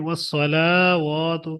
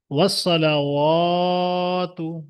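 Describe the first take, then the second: First: ওয়াসসালাওয়াতু with the লা wrongly stretched; wrong elongation. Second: ওয়াসসালাওয়াতু with লা short and ওয়া stretched; correct elongation. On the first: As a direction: drag out the লা in ওয়াসসালাওয়াতু as a mistake. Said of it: "ওয়াসসালাই লামে টান দিয়ে থাকে". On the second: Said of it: "কেমন পড়বেন?". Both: Shown as a demonstration.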